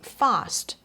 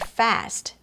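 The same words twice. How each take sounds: First: The vowel is long and open, as in 'father'. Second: The vowel is short and flat, as in 'cat'. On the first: "you say fast" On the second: "instead of saying fast"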